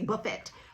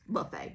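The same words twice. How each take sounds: First: The t is sounded and it ends in 'et'. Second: The t is silent and it ends in 'ay'. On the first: "I like to pronounce the words. I see buffet" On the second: "I know it's buffet"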